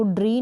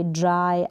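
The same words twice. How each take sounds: First: ड्री ending in an ee sound; wrong Y reading. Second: ड्राई ending in a long eye sound. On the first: Teacher showing how not to read dry, ड्री with ee. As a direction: say ड्री with ee in place of eye. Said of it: "इसको ड्री नहीं पढ़ेंगे". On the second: Teacher showing the reading of dry, ड्राई with eye. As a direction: say ड्राई with a clear eye vowel. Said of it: "आई का sound आएगा वाई के लिए". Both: Shown as a demonstration.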